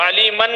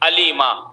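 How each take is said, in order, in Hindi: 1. शब्द न् की ध्वनि पर खत्म होता है। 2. शब्द लंबे आ स्वर पर खत्म होता है। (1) "तनवीन मफ्तू है तो अलीमन है" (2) "अलिफ से बदल देंगे"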